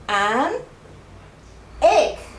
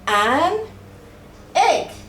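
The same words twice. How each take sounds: Both takes have the same delivery.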